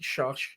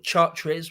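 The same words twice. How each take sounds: First: The name is said with a French pronunciation. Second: The name is said with an English pronunciation. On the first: "the French pronounce it" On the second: "we'd say it"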